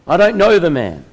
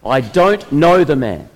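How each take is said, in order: First: Higher and louder, a sharp denial; forceful denial. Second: Louder and slow, each word ground out; frustrated swearing. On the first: Peter denies Jesus to the servant girl, forceful and loud. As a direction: shove the accusation away hard. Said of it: "but more forcefully responds". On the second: Peter, cornered by the crowd, frustrated and slow. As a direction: spit it out in exasperation. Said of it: "Peter swears in his frustration". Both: Acted.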